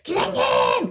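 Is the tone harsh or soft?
harsh. It is called out harshly and abruptly.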